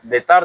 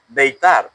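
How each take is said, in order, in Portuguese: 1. A palavra é pronunciada com dicção descuidada. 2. A palavra é pronunciada com dicção cuidadosa.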